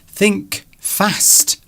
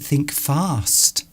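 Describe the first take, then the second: First: Fast is said with a regional vowel. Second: Fast is said with a posh vowel. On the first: Someone else says it this way. "Mister Duncan would say" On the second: The speaker says it this way. "I would say think fast"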